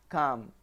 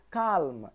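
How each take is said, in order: First: Calm with no L, kahm; silent L. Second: Calm with the L sounded; wrong take with L. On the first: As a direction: drop the L in calm. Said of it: "I'm saying calm". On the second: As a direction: say calm with a clear L. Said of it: "I'm not saying calm". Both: Shown as a demonstration.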